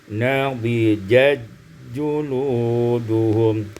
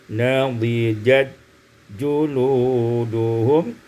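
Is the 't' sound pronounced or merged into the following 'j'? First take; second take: merged; merged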